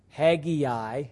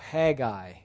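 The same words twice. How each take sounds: First: An extra 'ee' vowel comes before the final 'eye'. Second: The ending is one 'eye' sound, no extra vowel. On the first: The speaker calls it wrong. "notice that it's not H-A-G-G-E-A-I" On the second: The speaker calls it right. "is the way to say that"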